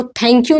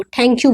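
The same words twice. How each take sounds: First: Tongue on teeth for "thank you"; usual Indian thank you. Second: "thank you" opening on a puffed retroflex t; American-style thank you. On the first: Teacher showing what they won't say, dental th. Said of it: "वो thank you नहीं बोलेंगे". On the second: Teacher showing their thank you, aspirated t. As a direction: curl the tongue and puff on "thank you". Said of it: "वो thank you बोलते हैं". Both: Shown as a demonstration.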